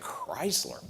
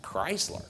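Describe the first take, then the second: First: Dismissive mock sigh. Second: Mock doubtful question. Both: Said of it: "Everyone's like".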